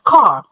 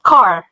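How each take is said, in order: First: The final r is dropped, not pronounced. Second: The final r is clearly pronounced. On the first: This is the British way of saying it. "تلاقي البريطاني يقول لك car ... دي كلمات بتخفي حرف الR" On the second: This is the American way of saying it. "لأ ده إحنا هنأكد على الR، فيبقى car"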